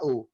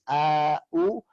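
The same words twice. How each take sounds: First: No vowel is inserted between the glottal stops. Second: A long a is inserted between the glottal stops. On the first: "tanpa ada alif, menjadi au biasa" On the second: "menjadikan idkhal pada dua hamzah ini menjadi"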